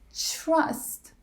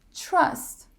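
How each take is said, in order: First: It begins with a ch-like sound. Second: It begins with a ch-like sound.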